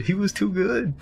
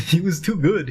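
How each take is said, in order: First: Said in the usual way. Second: Laughing, high praise. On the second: Real, not acted. Friend praising the maintenance dude, laughing. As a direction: giggle it out in delight.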